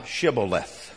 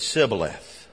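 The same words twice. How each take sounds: First: "Shibboleth" with a hushing sh at the start; correct pronunciation. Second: "Sibboleth" with a plain s instead of sh; hard-to-say SH replaced by S in "Sibboleth"; mispronunciation. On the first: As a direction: begin "Shibboleth" with SH as in ship. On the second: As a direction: begin "Sibboleth" with S as in sip. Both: Shown as a demonstration. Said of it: "could not frame to pronounce it right".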